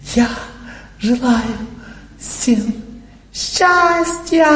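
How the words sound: It is said in a showy, emotional way.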